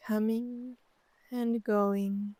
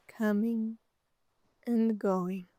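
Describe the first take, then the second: No difference in how they are said.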